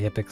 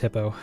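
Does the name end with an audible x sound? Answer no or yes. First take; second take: yes; no. First: The name ends with an audible x sound. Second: The name ends in a vowel, no final x. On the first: This is a personal, playful pronunciation. "I just say Hippix because it's just fun to say" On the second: This is the intended pronunciation. "It's supposed to be pronounced hippo"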